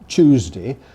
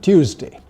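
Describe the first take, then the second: First: It begins with a ch sound. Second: It begins with a ty sound. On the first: This is the newer, increasingly acceptable form. "this ch pronunciation" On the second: This is the older standard form. "what was the previous standard"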